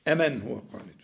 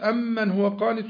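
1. حرف الميم في الكلمة الأولى بدون تشديد. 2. حرف الميم في الكلمة الأولى مشدد. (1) "دي همزة نداء القريب" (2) "القراءة بتاعت الزمر عندنا احنا في حفص"

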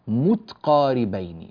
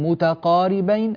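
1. تُنطق التاء بلا حركة بعدها. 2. تُنطق التاء مع حركة بعدها. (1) "بسكون التاء" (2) "هكذا ينكسر البيت"

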